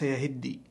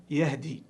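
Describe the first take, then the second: First: "يهدي" as yahiddī, with doubled d; contrasted reading. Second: "يهدي" as yahdī, silent vowel on h; single d straight after h in "يهدي"; misreading. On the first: Teacher contrasting readings, "يهدي" as yahiddī. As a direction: put i after the h and double the d in "يهدي". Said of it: "وليس". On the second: Teacher imitating a mistake, "يهدي" as yahdī. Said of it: "بعضهم يقرأها". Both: Shown as a demonstration.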